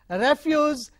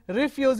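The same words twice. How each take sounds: First: The stress is on the first syllable. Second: The stress is on the second syllable. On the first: It is a noun. "Refuse is a noun" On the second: It is a verb. "refuse is a verb"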